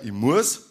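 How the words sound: It is said in a Bavarian dialect accent. "sagt der Bayer"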